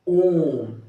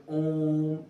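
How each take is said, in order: First: ओम held long as a pluta vowel; ओम with the vowel held extra long; drawn-out Om. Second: Said in the usual way. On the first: Shown as a demonstration. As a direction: stretch ओम out, very long. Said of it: "प्लुत स्वर कहते हैं". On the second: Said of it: "जैसे कि हम लोग पढ़ते हैं".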